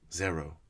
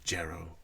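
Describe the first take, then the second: First: The name begins with a Z sound. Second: The name begins with a J sound. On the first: "with the Z, not the J" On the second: "I always pronounce it uh, Jero"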